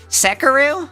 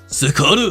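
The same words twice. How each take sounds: First: It is said with an American Midwest accent. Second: It is said with a Japanese accent.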